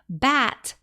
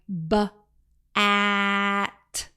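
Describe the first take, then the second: First: The sounds run smoothly together as one word. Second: The first sound is split off before the rest. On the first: The speaker calls it right. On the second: The speaker calls it wrong.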